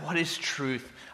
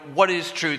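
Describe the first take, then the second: First: It sounds longing and wistful. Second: It sounds cynical and angry.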